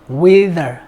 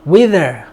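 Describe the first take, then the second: Both takes have the same delivery.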